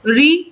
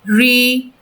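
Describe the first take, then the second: First: The vowel is held only briefly. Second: The vowel is held about twice as long. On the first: "ह्रस्व स्वर के उच्चारण में कम समय लगा है" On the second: "दीर्घ स्वरों के उच्चारण में इस ह्रस्व की तुलना में डबल समय लगा"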